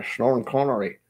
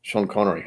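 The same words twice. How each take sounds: First: Slushy Scottish impression; Sean Connery. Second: Said in the usual way. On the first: Streamer slipping from one Scot to another, slushy Scottish impression. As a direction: slur the s into "sh" with a Scottish burr. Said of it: "now I'm slipping into, uh, Sean Connery". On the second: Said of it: "now I'm slipping into".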